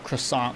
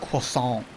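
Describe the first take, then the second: First: The word is said with an English accent. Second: The word is said with a French accent.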